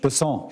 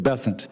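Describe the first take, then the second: First: The name is pronounced the French way. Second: The name is pronounced the South Carolina way. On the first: "I'm going to pronounce it with a French Besson" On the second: "That's what those folks in South Carolina do"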